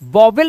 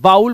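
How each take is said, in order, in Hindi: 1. यह दो अलग-अलग अक्षरों में बोला जाता है। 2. यह एक ही ग्लाइडिंग अक्षर में बोला जाता है। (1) "आज के बाद आप कभी भी इसे वॉवेल नहीं पढ़ेंगे" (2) "वाउल पढ़ेंगे"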